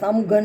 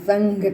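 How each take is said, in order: First: An m sound comes before the gh. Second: An ng sound comes before the gh. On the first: The speaker calls it wrong. "નથી કરતા" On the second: The speaker calls it right. "પણ સંઘ કરીએ છીએ, અંગ ઉચ્ચાર કરીએ છીએ"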